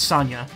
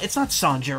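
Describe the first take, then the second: First: The middle consonant is a Y sound. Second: The middle consonant is a J sound. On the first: The speaker calls it right. "you don't pronounce the J" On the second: The speaker calls it wrong. "that's how I've always said it, but it's not right"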